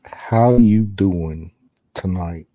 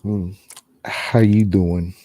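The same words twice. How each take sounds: First: Lower, very slow drawn-out flirt; Joey-style pickup line. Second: Low, slow flirty greeting; Joey-style pickup line. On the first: Ghost hunter hamming it up for the spirits, lower and very slow. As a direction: stretch it out like a smooth pickup line. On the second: Ghost hunter flirting with the spirits, low and slow. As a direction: lay on the charm, low and slow. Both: Pretend. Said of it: "he's getting a sexy voice".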